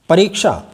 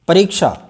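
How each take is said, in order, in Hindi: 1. यह संयुक्त वर्ण k के बाद sh के रूप में बोला जाता है। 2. यह संयुक्त वर्ण k के बाद sh के रूप में बोला जाता है।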